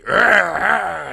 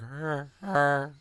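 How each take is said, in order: First: Loud, higher growling grunts; monster growl. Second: Quiet, worn-out grunting; exhausted monster grunt. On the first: The monster growling at the blind man, loud and wary. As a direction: growl like a cornered beast. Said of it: "when he sees the blind guy, and, he". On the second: The monster lying down, spent, grunting softly. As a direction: grunt like a beast too tired to fight. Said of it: "He's exhausted". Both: Retold or imitated.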